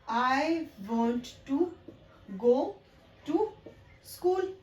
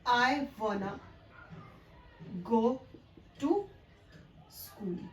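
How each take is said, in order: First: 'Want to' is said fully as two words. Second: 'Want to' is run together as 'wanna'. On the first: "जिनको कि हम बहुत ही emphasise करके बोल रहे थे" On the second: "इस वर्ड को वाना"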